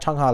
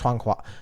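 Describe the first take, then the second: First: The name ends with a plain 'ha' syllable. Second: The name ends with a rounded 'hua' syllable. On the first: The speaker calls it wrong. "It's not Changha like the singer" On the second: The speaker calls it right. "There's a flower at the end"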